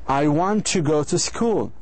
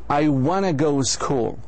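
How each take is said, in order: First: Want to is said in full, two clear words. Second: Want to is reduced to one blended word, wanna. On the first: "instead of saying" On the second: "Americans say, and British"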